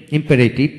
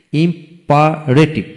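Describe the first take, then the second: First: Said in the usual way. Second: imperative slowly split into beats; syllable by syllable. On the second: Shown as a demonstration. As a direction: pause between the parts of imperative. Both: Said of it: "যে ওয়ার্ডে তিনটি syllable থাকে".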